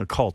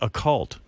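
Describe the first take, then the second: First: It is said as one word, occult. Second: It is said as two words, a and cult. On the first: It refers to the supernatural. The speaker calls it wrong. "they're not saying occult" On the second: It refers to a group of people. The speaker calls it right. "They're saying a, and then a word C"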